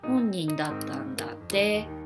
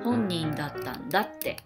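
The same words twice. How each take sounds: First: The pitch accent falls on the final te. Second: The pitch accent falls on da, not te. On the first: Someone else told the speaker this. "If you put the accent on て, it means it's a hearsay" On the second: The speaker insists on what they already said. "You put the accent on だ"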